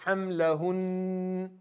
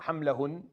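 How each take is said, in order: First: The final n is held for two counts. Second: The final n is cut short. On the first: The speaker calls it right. "we give it two counts" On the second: The speaker calls it wrong. "It's not hamlahun"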